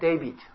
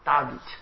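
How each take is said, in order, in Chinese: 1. 这个名字是用英语元音读的。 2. 这个名字是用纯拉丁式元音读的。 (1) "我用英文念David" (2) "用那个拉丁文念法，就是或者古代语言那个母音是发这个R A E O U 嘛"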